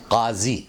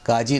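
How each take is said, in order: First: "काजी" as qaazi, throaty q; careful Urdu "काजी", z for j; correct pronunciation. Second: "काजी" with plain k and j; everyday "काजी" with a j sound; common mispronunciation. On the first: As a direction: say "काजी" with q and buzzed z. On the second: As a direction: say "काजी" as kaaji. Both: Shown as a demonstration. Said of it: "काजी नहीं".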